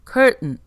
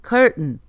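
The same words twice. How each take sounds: Both takes have the same delivery.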